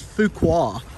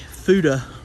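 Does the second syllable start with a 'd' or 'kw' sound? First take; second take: kw; d. First: The second syllable starts with a kw sound. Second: The second syllable starts with a d sound. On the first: The speaker calls it right. "it was Fuqua" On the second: The speaker calls it wrong. "I was completely mispronouncing it. It was not a Fuda Bros"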